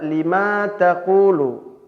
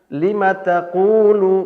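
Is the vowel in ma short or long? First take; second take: long; short. First: The ma syllable has a lengthened vowel. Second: The ma syllable has a short vowel. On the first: The speaker calls it wrong. "Menambah huruf mad" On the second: The speaker calls it right. "ma-nya pendek"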